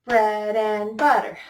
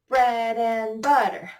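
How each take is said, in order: No difference in how they are said.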